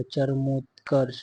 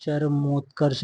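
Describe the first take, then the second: First: चरमोत्कर्ष slowly, syllable by syllable; careful sounding-out. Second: Said in the usual way. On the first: Shown as a demonstration. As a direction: draw out चरमोत्कर्ष as cha-ra-mot-karsh. (चरमोत्कर्ष, धीरे-धीरे अक्षर तोड़कर) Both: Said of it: "ऐसे लिखा जाएगा".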